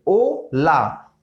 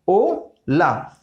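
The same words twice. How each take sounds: First: ओ ला very slow, syllables split; silent h. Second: ओ ला drawn out, no h; silent h. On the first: Teacher shows hola without h, very slow. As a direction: split ओ ला slowly, no h. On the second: Teacher repeats hola without h, slow. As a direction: say ओ ला slowly again, no h. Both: Shown as a demonstration. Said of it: "हम pronounce करेंगे ओ से".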